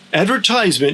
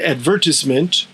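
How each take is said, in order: First: It is said with the American pronunciation. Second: It is said with the British pronunciation. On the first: "is the American and Canadian pronunciation" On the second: "is the British pronunciation"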